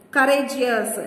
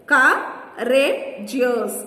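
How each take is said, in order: First: Said in the usual way. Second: "courageous" slowly split as cou, ra, geous; syllable by syllable. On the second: Shown as a demonstration. Teacher counting syllables for children, "courageous" broken up slowly. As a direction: pause between the three syllables of "courageous". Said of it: "three syllables".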